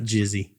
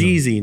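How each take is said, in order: First: The first vowel is a short 'i' sound. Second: The first vowel is a long 'ee' sound. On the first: The speaker calls it wrong. "not Jizzy" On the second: The speaker calls it right. "Jeezy, not Jizzy"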